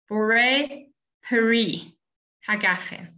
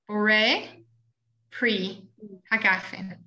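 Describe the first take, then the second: First: The middle word has two syllables, vowel pronounced. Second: The middle word is one syllable, vowel dropped. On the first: "You all know the word peri" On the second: "you know it as pre"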